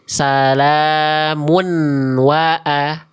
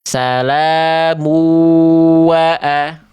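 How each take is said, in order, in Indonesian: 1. Huruf n diucapkan jelas sebelum kata berikutnya. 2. Huruf n melebur ke kata berikutnya tanpa dengung sengau. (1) "nunnya tidak lebur, konsonan n-nya tidak lebur, dibacanya jelas" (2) "dia cuma lebur, tahan dua harokat tapi nggak pakai bigunah"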